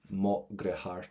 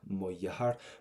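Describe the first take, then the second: First: The second word starts with a G sound. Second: The second word starts with a Y sound. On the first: This is the most common pronunciation. "We can go for a G sound" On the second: This is the northern regional pronunciation. "what you would have is a Y sound"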